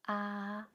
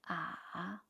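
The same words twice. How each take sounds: First: The pitch stays high and level. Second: The pitch dips low and then rises.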